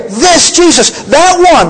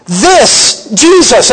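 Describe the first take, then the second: First: "this Jesus" pitched high and pressed; emphatic. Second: Jesus drawn out slow and weighty; emphatic. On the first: Preacher pointing the congregation to this very Jesus, high and emphatic. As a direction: lift "this Jesus, that one" up high with force. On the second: Preacher slowly stressing "This Jesus" to the congregation. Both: Acted. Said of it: "emphatic here".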